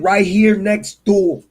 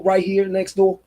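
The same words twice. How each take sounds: First: "right here next door" drawn out slowly, every word weighted; slow right down on "right here next door" to drive it home; emphatic repeat. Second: Said in the usual way. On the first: Real, not acted. Repeating where the temple is, "right here next door" slow and emphatic. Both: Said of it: "I'ma repeat again".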